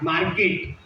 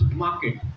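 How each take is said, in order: First: The R sound is strongly emphasized. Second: The R sound is soft and light. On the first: The speaker calls it wrong. "Not market" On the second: The speaker calls it right. "It's market"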